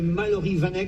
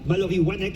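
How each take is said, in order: First: The surname starts with a V sound. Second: The surname starts with a W sound. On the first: The speaker calls it wrong. "je ne sais pas si j'ai écorché son nom" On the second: The speaker calls it right. "il fallait prononcer wa et non pas va"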